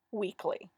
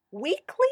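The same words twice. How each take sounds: First: Firm falling reply, no give; stern. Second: High rising, pleading question; wheedling. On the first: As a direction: shut the plea down sternly. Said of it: "she said sternly". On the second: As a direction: wheedle for a concession. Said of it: "he wheedled". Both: A narrator's reading.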